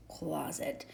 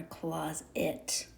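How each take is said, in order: First: Said in the usual way. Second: "closet" slowly split, CLOZ ... IT; sounded-out trial pronunciation. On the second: Shown as a demonstration. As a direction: stretch "closet" into two syllables ending in IT. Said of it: "or closet".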